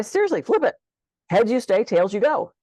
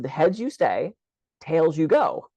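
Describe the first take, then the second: First: Urging insistence. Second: Said in the usual way. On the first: Retold or imitated. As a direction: insist emphatically, pitch up. Coach urging client to flip coin.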